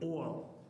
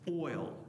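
First: The word is said in an East Texas accent. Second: The word is said in a plain, neutral accent.

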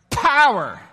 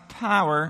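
First: It is said loudly and explosively. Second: It is said weakly and flatly.

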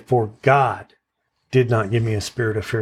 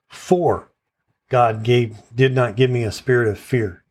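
First: The stress is on "God". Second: The stress is on "For".

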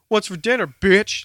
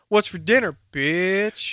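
First: The last word is said short and clipped. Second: The last word is stretched out long. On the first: The speaker calls it wrong. "you can't do it short because that's aggressive" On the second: The speaker calls it right. "I always extend the word bitch"

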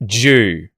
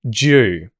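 First: The d and y merge into one 'j' sound. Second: The same.

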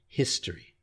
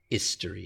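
First: The word begins with an audible h sound. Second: The word begins with a vowel, no h. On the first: The speaker calls it right. "we have to pronounce the H" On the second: The speaker calls it wrong. "It's not history"

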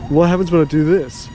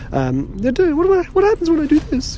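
First: It is said in a very deep voice. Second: It is said in a put-on cartoon-character voice. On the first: "I don't know why I was a really deep voice as a kid" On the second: "I've turned into Stewie, haven't I?"

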